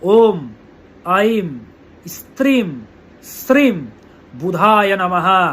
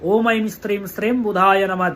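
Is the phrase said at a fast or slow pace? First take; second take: slow; fast. First: It is said slowly and deliberately. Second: It is said at an ordinary, quicker pace.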